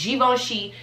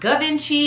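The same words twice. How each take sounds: First: The name is said with a French pronunciation. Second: The name is said with a non-French pronunciation. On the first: The speaker calls it right. "Very French" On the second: The speaker calls it wrong. "it's not Givenchy"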